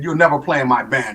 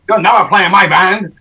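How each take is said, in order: First: It is said in the speaker's plain voice. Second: It is said in a Haitian-like accent.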